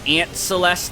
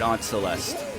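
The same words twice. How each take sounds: First: The first word sounds like the insect 'ant'. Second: The first word sounds like 'ahnt', not the insect. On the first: It makes you think of insects on the pizza. The speaker calls it wrong. "that would make it even worse" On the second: It avoids making you think of insects. The speaker calls it right. "I'm pronouncing it Aunt Celeste"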